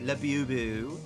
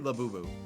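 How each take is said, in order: First: It is said in a British accent. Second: It is said in a plain, unaccented way. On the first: "they also say Labubu with a British accent sometimes" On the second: "They don't always"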